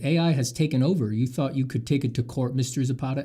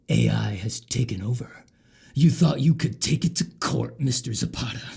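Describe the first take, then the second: First: It is read in a plain everyday voice. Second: It is read in a put-on character voice.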